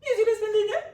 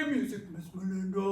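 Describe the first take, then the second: First: Much higher and louder, squeaky. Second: Fast, goofy silly voice. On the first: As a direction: squeak it up high and loud. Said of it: "Or in a high voice". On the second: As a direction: say it as silly as you can. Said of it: "in your silliest voice". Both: Shown as a demonstration.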